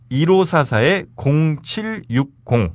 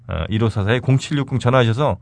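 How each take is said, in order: First: Slow number readout. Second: Said in the usual way. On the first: Shown as a demonstration. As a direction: read the digits slowly and clearly. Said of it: "slow number read for listeners". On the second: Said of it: "repeats number at normal speed".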